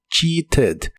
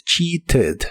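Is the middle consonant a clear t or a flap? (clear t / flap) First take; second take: clear t; clear t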